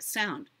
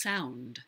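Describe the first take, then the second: First: "sound" with the diphthong flattened, OU barely glided; lazy diphthong. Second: "sound" with a full O to U glide; full diphthong. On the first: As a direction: say "sound" without bothering with the O U glide. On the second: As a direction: give "sound" its full two-vowel OU. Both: Shown as a demonstration. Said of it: "Do you hear the difference when you say sound and sound?".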